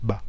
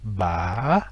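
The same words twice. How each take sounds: First: The pitch stays level throughout. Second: The pitch rises, drops sharply, then rises. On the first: "l'absence d'accent" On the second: "montée, descend, remontée"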